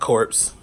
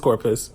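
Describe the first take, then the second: First: The word is said as one syllable. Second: The word is said as two syllables. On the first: The speaker calls it wrong. "I was saying like corpse" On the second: The speaker calls it right. "I know it is Corpus"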